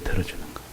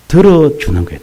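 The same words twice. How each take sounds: First: Soft breathy whisper of the same words. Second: Said in the usual way. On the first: Shown as a demonstration. Preacher echoes the point to the congregation, whispered. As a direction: drop to a bare whisper to let it sink in.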